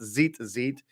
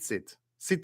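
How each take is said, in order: First: The word begins with a plain buzzing z. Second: The word begins with a ts sound. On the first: The speaker calls it wrong. "It's not "zeet zeet,"" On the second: The speaker calls it right.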